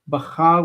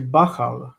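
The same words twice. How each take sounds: First: The stress is on the last syllable. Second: The stress is on the first syllable. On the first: The speaker calls it wrong. "we don't say Bachar" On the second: The speaker calls it right. "with the stress moved forward"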